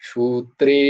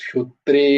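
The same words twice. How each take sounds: No difference in how they are said.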